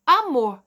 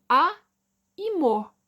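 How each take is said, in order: First: "Amor" run together, both syllables in one go; said as one word. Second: "A e mor" split into two separate parts, pause between; syllable by syllable. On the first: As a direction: say "Amor" whole, without a break. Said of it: "eu pronuncio amor". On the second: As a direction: break "A e mor" apart, each syllable alone. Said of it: "Eu não pronuncio só o mor". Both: Shown as a demonstration.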